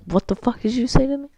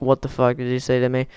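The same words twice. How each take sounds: First: High, fast, softer mocking imitation; mock bus driver. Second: Said in the usual way. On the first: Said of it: "the bus driver was like". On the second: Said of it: "He actually said, like".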